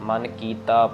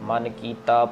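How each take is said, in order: No difference in how they are said.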